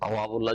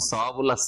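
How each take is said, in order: First: The word begins with a hard 't' sound. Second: The word begins with a soft 'th' sound. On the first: The speaker calls it wrong. "তাওয়াবুল্লাহ যদি পড়েন" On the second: The speaker calls it right. "সা দিয়ে রয়েছে"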